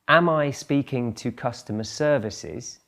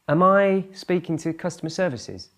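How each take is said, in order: First: The first word has a full, clear vowel. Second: The first word is reduced to a short 'um'. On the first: "That's the strong form" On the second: "It's much more common to hear um"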